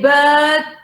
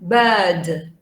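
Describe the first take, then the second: First: The final d sound is left off. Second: The final d sound is clearly pronounced. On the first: The speaker calls it wrong. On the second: The speaker calls it right.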